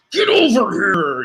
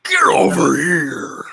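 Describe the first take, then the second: First: Slow, drawn-out Scorpion call. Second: Slow, drawn-out Scorpion shout. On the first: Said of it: "in the words of, uh, Scorpion from Mortal Kombat". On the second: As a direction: roar it slowly like Scorpion. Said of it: "Yeah, yeah, that's it". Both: Retold or imitated.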